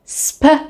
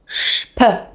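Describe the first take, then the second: First: It begins with a plain s sound. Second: It begins with a sh sound. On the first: The speaker calls it wrong. "instead of pronouncing S P as sp" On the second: The speaker calls it right. "you pronounce it shp"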